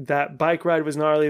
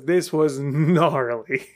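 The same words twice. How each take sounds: First: Said in the usual way. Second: Slow, drawn-out "gnarly"; emphatic stress on GNARLY. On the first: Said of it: "all the times I've used the term gnarly". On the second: Real, not acted. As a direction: hang on "gnarly" for full weight. Contrasts crash with casual gnarly.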